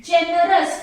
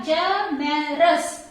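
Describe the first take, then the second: First: Said in the usual way. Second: Generous slowly split into three beats; syllable by syllable. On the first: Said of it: "First word is generous". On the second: Shown as a demonstration. Teacher showing students three syllables, Generous broken slowly apart. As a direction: say Generous slowly, a break after each syllable. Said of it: "three syllables are there".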